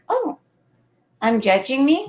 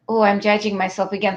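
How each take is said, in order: First: It sounds light and curious. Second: It sounds heavy and self-critical.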